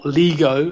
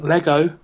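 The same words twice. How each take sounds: First: Lego said as LEE-go; long "ee" in the first syllable of Lego; American-style "Lego" mispronunciation. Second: Said in the usual way. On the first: Shown as a demonstration. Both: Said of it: "as the Americans like to call it".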